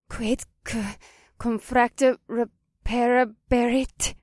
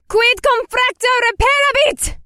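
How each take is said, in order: First: It is spoken hesitantly with a breaking voice. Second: It is shouted loudly and forcefully.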